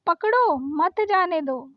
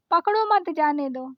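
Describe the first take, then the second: First: Slow पकड़ो, pause, then मत जाने दो; comma pause after पकड़ो. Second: Said in the usual way. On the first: Shown as a demonstration. Teacher shows what the comma does, pausing after पकड़ो. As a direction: break the phrase right after पकड़ो. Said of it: "तो ये comma लग गया". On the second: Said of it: "तो ऐसे नहीं समझ में".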